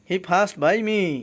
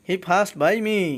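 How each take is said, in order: First: The p sound has a strong breathy puff. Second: The p sound has a strong breathy puff.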